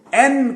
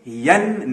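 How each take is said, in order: First: "این" with a clean sharp vowel onset; slow, stressed "این", no y glide; correct letter N. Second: "ین" with a y glide at the start; slow mispronounced "ین"; wrong Y onset. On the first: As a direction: start "این" straight on the vowel. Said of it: "آپ اس کو این کہیں". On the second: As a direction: slide into "ین" from a y sound. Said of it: "ین نہیں". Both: Shown as a demonstration.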